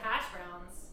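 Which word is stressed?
hash. The stress is on hash.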